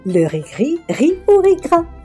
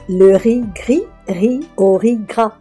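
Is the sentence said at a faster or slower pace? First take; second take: faster; slower. First: The sentence is said at a faster pace. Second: The sentence is said at a slower pace.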